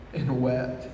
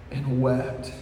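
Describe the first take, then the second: No difference in how they are said.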